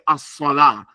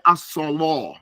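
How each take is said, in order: First: The L sound is light and thin. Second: The L sound is heavy and thick. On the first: This is the usual recitation. "in our Quran we say as-salah" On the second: This is the Warsh recitation. "they make it mufakham"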